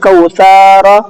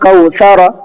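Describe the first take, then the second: First: The middle sa sound is drawn out. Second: No sound is drawn out; all are short. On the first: The speaker calls it wrong. "ये भी गलत हो जाएगा, यहाँ पर सा खिंच गया।" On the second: The speaker calls it right. "ये सही है आपका"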